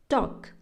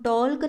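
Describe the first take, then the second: First: The word is said without any L sound. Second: The word is said with an L sound. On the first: The speaker calls it right. "हम कैसे बोल रहे हैं, टॉक" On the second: The speaker calls it wrong. "हम टॉल्क ना बोल करके"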